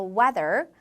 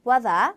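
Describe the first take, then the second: First: Weather ending in a sounded American R; 미국식 weather; American pronunciation. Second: Weather with no R, ending in ah; 영국식 weather; British pronunciation. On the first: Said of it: "미국 영어에서 weather". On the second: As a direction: drop the R in weather, British style. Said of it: "영국 영어에서는 weather". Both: Shown as a demonstration.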